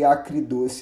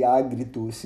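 First: "acridoce" with a hard k sound in "acri"; unmerged pronunciation. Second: "agridoce" with a voiced g in "agri"; merged pronunciation. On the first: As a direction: say "acridoce" with k, not g. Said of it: "Eu não falei acridoce". ("acridoce" pronunciado com som de "c" em vez de "g") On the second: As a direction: say "agridoce" with g, not k. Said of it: "eu falei agridoce". ("agridoce" pronunciado com som de "g" em vez de "c") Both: Shown as a demonstration.

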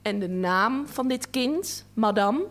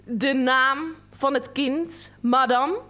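First: A sharp, curt question; a touch of a curt official demanding an answer; snappish question. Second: Slower, louder, sharper question; an official losing patience, slow and pointed; even more snappish. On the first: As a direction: snap the question at her. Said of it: "Vervolgens vinnig". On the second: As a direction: press her harder, word by word. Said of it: "nog vinniger". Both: A narrator's reading.

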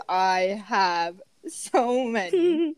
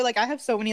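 First: Slow, stretched "I have so many"; drawn-out emphasis. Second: Said in the usual way. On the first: Shown as a demonstration. Gelato worker to co-hosts, a slow stretched "I have so many". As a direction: drag out "many" for weight.

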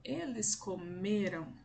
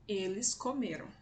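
First: "Eles comeram" slowly, stretching the ME; stress on middle syllable. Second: Said in the usual way. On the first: Shown as a demonstration. Teacher demonstrating the middle syllable, slow stressed "me" in "comeram". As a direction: draw out the "me" in "comeram". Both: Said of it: "A sílaba mais forte será a sílaba do meio".

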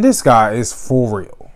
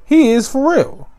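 First: Said in the usual way. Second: Much higher, amazed repeat; excited emphasis. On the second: Real, not acted. Host hyping Kyle Trask, amazed. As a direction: lift it up in awe. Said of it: "restated much higher".

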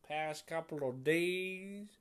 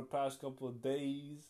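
First: Put-on slow, drawled southern accent. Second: Said in the usual way. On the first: Talking about enjoying country music, southern accent. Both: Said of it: "doing the southern accent".

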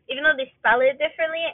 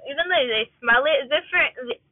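First: Said in the usual way. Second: Talking around a wad of gum; slightly slurred, gum in mouth; chewing gum. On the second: Real, not acted. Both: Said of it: "Sorry, I'm chewing gum".

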